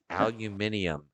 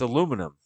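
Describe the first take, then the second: First: The word is said with five syllables. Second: The word is said with four syllables. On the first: The speaker calls it wrong. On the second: The speaker calls it right.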